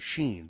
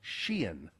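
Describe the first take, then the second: First: The name sounds like the word 'sheen'. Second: The name does not sound like 'sheen'. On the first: The speaker calls it wrong. "they say Sheen" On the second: The speaker calls it right. "but it's Shein"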